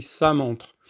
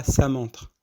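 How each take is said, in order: First: Ça montre with a dark, fuller s; heavy sad-like s. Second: Ça montre with a thin s and fronted vowel; light sin-like s. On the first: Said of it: "on dit ça montre". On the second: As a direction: say the ça of ça montre like Arabic seen. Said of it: "on dit pas ça montre". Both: Shown as a demonstration.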